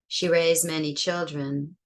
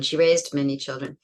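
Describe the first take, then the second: First: The verb has no stop at its end. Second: The verb ends with a clear stop sound. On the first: It is in the present. "That's present" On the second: It is in the past. "There's a stop there"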